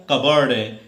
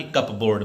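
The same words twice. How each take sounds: First: कबर्ड with no p, ka-bard, falling tone; correct pronunciation. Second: कप बोर्ड read letter by letter as cup and board; wrong spelling pronunciation. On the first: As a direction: give the right form कबर्ड, firmly. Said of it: "बल्कि क्या होता है". (सही उच्चारण, कबर्ड) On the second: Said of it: "ना कि कप बोर्ड". (गलत उच्चारण, कप बोर्ड अलग-अलग) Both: Shown as a demonstration.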